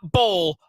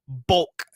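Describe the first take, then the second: First: The word ends without a K sound. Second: The word ends with a clear K sound. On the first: The speaker calls it wrong. "not bowl" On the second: The speaker calls it right. "You didn't enunciate the K"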